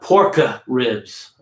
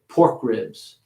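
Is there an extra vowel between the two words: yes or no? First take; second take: yes; no. First: An extra vowel sound separates the two words. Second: The two words run together with no vowel. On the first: The speaker calls it wrong. "Not porka ribs" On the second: The speaker calls it right. "make that those word endings a little smaller so you can squeeze the words together"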